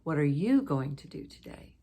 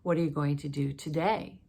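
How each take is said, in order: First: The word "you" carries the main stress. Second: The word "today" carries the main stress. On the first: The asker already shared plans and now wants the listener's. "with stress on the you" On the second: The asker wants this day's plans rather than last week's. "I'm going to emphasize the today part"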